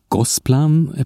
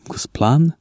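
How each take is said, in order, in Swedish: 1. Betoningen ligger på första stavelsen. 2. Betoningen ligger på sista stavelsen. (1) "Jag har sagt Gosplan på svenska" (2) "om Gosplan"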